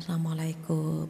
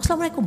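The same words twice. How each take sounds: First: It is said softly and gently. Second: It is said in an angry, curt voice. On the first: The wife sees her husband off at the door. The speaker calls it right. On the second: The couple are in the middle of a quarrel. The speaker calls it wrong.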